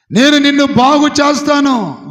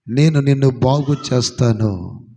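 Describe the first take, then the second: First: Higher and much louder, ringing out; loud proclamation. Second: Much lower, slow and weighty; low slow promise. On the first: Preacher voicing God's promise to Hezekiah, loud ringing shout. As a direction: shout the promise to the whole hall. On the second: Preacher voicing God's promise to Hezekiah, low and slow. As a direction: let the promise sink low and heavy. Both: Acted.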